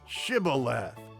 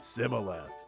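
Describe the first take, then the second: First: The word begins with an sh sound. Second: The word begins with an s sound. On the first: The speaker calls it right. "a special word" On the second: The speaker calls it wrong. "those Ephraimites pronounced it Sibboleth"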